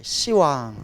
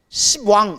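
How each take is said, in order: First: The first syllable ends softly without p. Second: A hard p closes the first syllable. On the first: "시왕이라고 발음하는 거예요" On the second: "원래는 ... 십왕 이래야 돼요"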